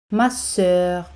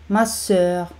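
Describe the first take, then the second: No difference in how they are said.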